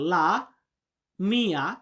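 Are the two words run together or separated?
separated. The two words are said separately. The speaker calls it right. "লা কিন্তু আলাদা"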